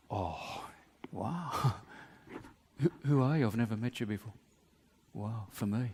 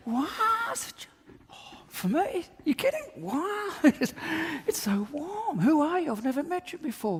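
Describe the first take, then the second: First: Hushed, breathless wonder, lower; awed whisper. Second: Squealing high-pitched gratitude, voice cracking up in joy; over-the-top delight. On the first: Man receiving an unexpected gift, whispering in awe. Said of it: "Or I can say". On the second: Man in a singlet thrilled by a stranger's jacket, squealing high. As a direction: gush with shrill surprise at the gift. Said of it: "Or he can say". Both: Pretend.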